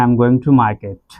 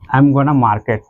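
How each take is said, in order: First: Going to is said as two full words. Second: Going to is reduced to one word, gonna.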